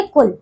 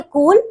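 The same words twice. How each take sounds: First: कुल with a short, quick u. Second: कूल with a long drawn-out ū. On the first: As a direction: clip the vowel in कुल short. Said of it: "और फिर लिखेंगे". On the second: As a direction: stretch the vowel in कूल, kooool. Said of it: "तो आप पहले लिखेंगे". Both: Shown as a demonstration.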